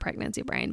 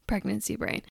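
First: It is said in a dismissive, eye-rolling tone. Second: It is said in a sincere, realizing tone. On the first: The speaker doubts the thing is real. "yeah, whatever" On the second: The speaker now accepts the thing is real.

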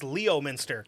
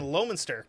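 First: The name is said the way it is spelled. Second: The name is said in a shortened local form. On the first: This is a reading from the spelling alone. The speaker calls it wrong. "That's not how you pronounce it" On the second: This is how locals say the name. The speaker calls it right. "We have a fucking Lowminster"

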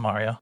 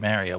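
First: Mario is said with the speaker's default pronunciation. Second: Mario is said with the New York pronunciation. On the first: This is the usual way to say the name. "I would default to Mario" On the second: This is how New Yorkers say the name. "I expect New York people to say Mario"

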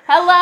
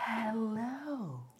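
First: It is said with a clear voice. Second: It is said with a breathy voice.

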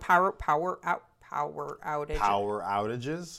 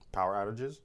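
First: The phrase is said at a normal pace. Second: The phrase is said at a faster pace.

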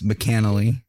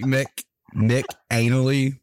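First: The first syllable is reduced and joined on. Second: The first syllable is a full separate 'Mick'. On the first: The speaker calls it right. "but it's McAnally" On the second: The speaker calls it wrong. "I know it looks like Mick Anally"

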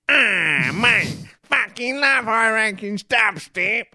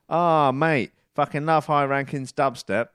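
First: It is read in a put-on imitating voice. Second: It is read in the speaker's ordinary voice.

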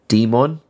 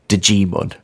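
First: The name starts with a plain D sound. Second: The name starts with a J sound. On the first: "I'm guessing Silent J" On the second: "if you pronounce the J"

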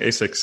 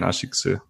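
First: The name is pronounced the American way. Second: The name is pronounced the Japanese way. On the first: "I always was used to saying ASICS in the US" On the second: "in many other places, including Japan, ASICS"

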